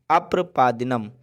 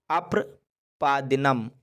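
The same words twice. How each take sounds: First: Said in the usual way. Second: अप्रपादिनम slowly, split after अप्र; slow syllable-by-syllable. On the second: Shown as a demonstration. Teacher introducing the Sanskrit word for pants, slow and broken up. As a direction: draw out अप्रपादिनम in careful parts for learners.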